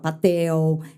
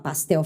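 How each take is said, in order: First: No S sound comes before the T. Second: An S sound comes before the T. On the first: The speaker calls it wrong. "criança que come os S's" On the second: The speaker calls it right. "em vez de falar pastel"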